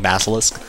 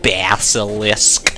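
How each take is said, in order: First: The syllables are run together smoothly. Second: Each syllable is said separately. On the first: "weird syllables that you just sort of glaze over and go" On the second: "if you put it together syllable-like"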